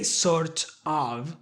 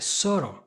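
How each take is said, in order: First: The two words are said separately and fully. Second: The two words are blended into one reduced word. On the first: The speaker calls it wrong. "You're not gonna say sort of" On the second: The speaker calls it right. "you're gonna put them together"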